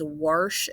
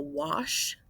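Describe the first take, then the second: First: "warsh" with an intruding R before the sh; dad's "warsh". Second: Said in the usual way. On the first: Retold or imitated. Teacher quotes dad's pronunciation to students, "warsh" with an R. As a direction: put an R into wash, making "warsh". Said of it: "my dad says". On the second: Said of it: "instead of".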